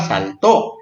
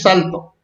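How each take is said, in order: First: The stress is on the last syllable. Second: The stress is on the first syllable. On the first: The speaker calls it right. "hay que ponerle acento para que diga saltó" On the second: The speaker calls it wrong. "Si le ponemos así va a decir salto"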